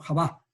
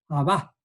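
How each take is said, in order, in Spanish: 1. El primer sonido es una h áspera y rasposa. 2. El primer sonido es una h suave y aspirada.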